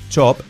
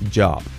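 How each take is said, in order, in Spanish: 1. La palabra empieza con un sonido ch sordo. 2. La palabra empieza con un sonido j sonoro. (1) "No es chop" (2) "es job"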